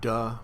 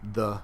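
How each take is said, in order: First: A plain d with the tongue behind the teeth. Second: A softer d with the tongue against the teeth. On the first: "a downright duh" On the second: "where the tongue is hitting the teeth"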